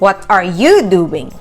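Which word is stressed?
you. The stress falls on the word you. The question is about the person being asked. "when the person being asked is the main focus"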